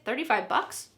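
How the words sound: It sounds casual and dismissive. The price is very small. "that's nothing"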